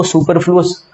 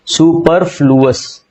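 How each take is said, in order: First: Said in the usual way. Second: superfluous said slowly, each syllable spelled out clearly; slow careful word. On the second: Shown as a demonstration. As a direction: draw out superfluous for students to copy. (Superfluous को धीरे-धीरे, हर अक्षर साफ़ बोलो)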